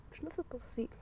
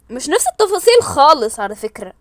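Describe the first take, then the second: First: Much softer murmur; hushed. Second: Said in the usual way. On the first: Real, not acted. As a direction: say it almost to yourself. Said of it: "repeated, first hushed". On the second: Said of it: "repeated out loud".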